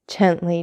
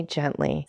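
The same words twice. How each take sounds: First: Said in the usual way. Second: Softer gently. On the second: A narrator's reading. Old man calms his son, gently softer. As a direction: let the gently fade to a soft hush. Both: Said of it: "said the old man with a smile".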